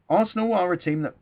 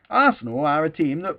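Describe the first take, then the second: First: It is said in the speaker's usual accent. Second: It is said in a northern English accent. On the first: The speaker calls it wrong. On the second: The speaker calls it right.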